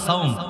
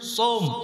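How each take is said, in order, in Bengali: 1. স্বরটি 'a' থেকে 'o'-তে গড়িয়ে যায়। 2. স্বরটি একটি সরল 'o'। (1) "আমরা বাংলা বলি সাওম" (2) "আসলে সঠিক উচ্চারণ হচ্ছে সোম"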